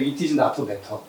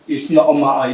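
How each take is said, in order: First: The t in matter is pronounced clearly. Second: The t in matter is dropped entirely. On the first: This is how it was taught in school long ago. "제가 이십 세기에 학교 다닐 때는 이렇게 했던 것 같아요" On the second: This is how Cockney speakers in London say it. "T 발음을 안 해요. 그럼 어떻게 되냐면 마어가 되는 거예요"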